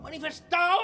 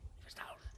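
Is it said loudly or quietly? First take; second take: loudly; quietly. First: It is said loudly. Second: It is said quietly.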